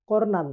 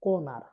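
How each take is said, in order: First: কর্নার with r before the n; R pronounced. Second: কর্নার with no r before the n; silent R. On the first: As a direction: sound the first r in কর্নার. (র উচ্চারণ করে কর্নার) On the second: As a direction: drop the first r in কর্নার. (প্রথম র বাদ দিয়ে কর্নার) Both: Shown as a demonstration. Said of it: "আর এর উচ্চারণ হবে না".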